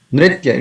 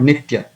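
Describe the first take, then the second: First: "Nritya" with the r after n sounded; careful nri- at the start of "Nritya"; correct r sound. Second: "Nitya" with no r after the n; mispronounced ni- start in "Nitya"; wrong, r dropped. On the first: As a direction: roll into the r of "Nritya". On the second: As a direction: leave the r out, "Nitya". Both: Shown as a demonstration. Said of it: "it is not Nitya".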